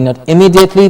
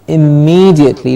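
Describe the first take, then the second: First: The 'me' syllable has a short vowel. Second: The 'me' syllable has a long E vowel. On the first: The speaker calls it wrong. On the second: The speaker calls it right. "but immediately. Long E"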